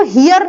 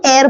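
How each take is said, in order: First: "हियर" with the written h sounded; wrong pronunciation. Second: "एयर" starting straight on the vowel; correct pronunciation, silent h. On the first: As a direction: say heir wrongly as "हियर", h pronounced. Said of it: "हियर नहीं बोला जाता". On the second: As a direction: say heir as "एयर", no h. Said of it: "एच silent होता है". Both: Shown as a demonstration.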